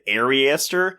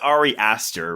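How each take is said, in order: First: The name runs together like one word. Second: The name is split into two separate words. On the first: "you said Ariaster" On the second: "but you meant you meant Ari Aster"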